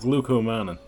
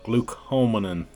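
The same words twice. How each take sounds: First: The first syllable sounds like 'glu'. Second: The first syllable sounds like 'glu'.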